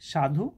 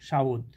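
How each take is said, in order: First: The u vowel comes after the dh. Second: The u vowel comes before the dh. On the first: "ধয়ের পরে হ্রস্বকার ছিল" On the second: "ধয়ের আগে হ্রস্বকার এসে উচ্চারিত হয়েছে"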